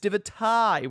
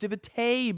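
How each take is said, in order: First: The last syllable sounds like 'tie'. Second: The last syllable sounds like 'tay'. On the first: The speaker calls it right. "but it is it is Divatai" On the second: The speaker calls it wrong. "I mispronounced their name as Divatay"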